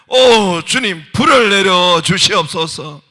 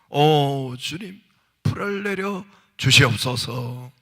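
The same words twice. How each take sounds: First: It is called out most loudly. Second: It is called out loudly.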